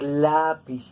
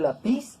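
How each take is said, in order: First: The stress is on the second-to-last syllable. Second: The stress is on the last syllable. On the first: The speaker calls it right. "va a sonar lápiz. Eso es una palabra grave" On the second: The speaker calls it wrong. "Para que no suene la pis"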